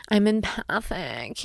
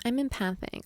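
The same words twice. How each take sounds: First: Said in the usual way. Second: Mocking what people say to her; a touch of eye-roll on the quote; quoting others with light sarcasm. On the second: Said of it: "We hear that all the time".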